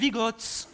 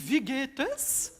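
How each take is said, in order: First: It is said in the Bourbine dialect. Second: It is said in standard German.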